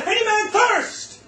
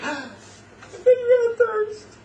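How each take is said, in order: First: It is shouted loudly. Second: It is said quietly, without shouting.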